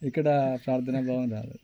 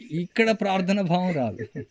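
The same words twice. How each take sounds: First: Said in the usual way. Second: Slow, with ఇక్కడ raised and leaned on; emphatic. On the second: Shown as a demonstration. Preacher warning the listeners that no prayer arises here, slow and emphatic. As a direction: drive home ఇక్కడ as a slow rising point.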